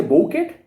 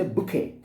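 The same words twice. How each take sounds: First: Bouquet said as "boh-KET" with a hard t; spelling-pronounced bouquet, "boh-ket"; wrong bouquet. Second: Bouquet said "boo-KAY", t silent; right bouquet. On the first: Teacher showing the wrong way to say bouquet, boh-ket. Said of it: "No, we say bouquet". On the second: Teacher modelling the right bouquet, boo-kay. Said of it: "we say bouquet". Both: Shown as a demonstration.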